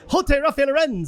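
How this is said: It is said in a put-on Spanish accent.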